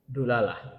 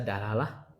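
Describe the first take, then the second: First: The first vowel is a u sound. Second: The first vowel is an a sound. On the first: "bisa dibaca dulalah" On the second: "bisa dibaca dalalah"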